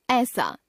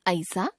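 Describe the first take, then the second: First: Said in the usual way. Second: ऐसा with a gliding "a-i"; mispronounced first vowel. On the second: Shown as a demonstration. Teacher showing a common error, ऐसा as "a-isa". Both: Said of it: "ए, ऐ संबंधी अशुद्धियां".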